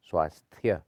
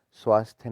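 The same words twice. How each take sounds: First: स्वास्थ्य ending "sthya", loud; correct final ya. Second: स्वास्थ्य cut to "swaasth", loud; wrong dropped y. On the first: Teacher saying ya belongs here, स्वास्थ्य with clear final ya. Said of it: "यहाँ पे या लगना चाहिए". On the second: Teacher showing the error, स्वास्थ्य without final ya. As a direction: leave the ya off स्वास्थ्य. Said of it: "नहीं होता". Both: Shown as a demonstration.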